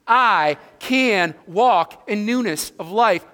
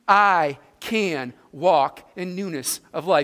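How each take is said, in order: First: It is said with strong, firm conviction. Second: It is said plainly, without special conviction.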